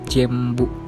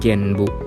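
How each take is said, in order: First: The nasal before the b sounds like m. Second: The nasal before the b sounds like n. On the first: The speaker calls it right. "N yang diucapkan M" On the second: The speaker calls it wrong.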